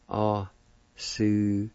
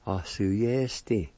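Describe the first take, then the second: First: "A, Suyesti" slowly broken into A, su, yes, ti; syllable by syllable. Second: "Or suyesti" as one connected word, ah-su-YES-ti; joined-up pronunciation. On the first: Teacher repeating it for learners, "A, Suyesti" in separate syllables. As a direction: stretch "A, Suyesti" out piece by piece. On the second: Teacher giving the whole word, "Or suyesti" joined up. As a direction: blend "Or suyesti" without gaps. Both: Shown as a demonstration. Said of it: "And it's pronounced like this".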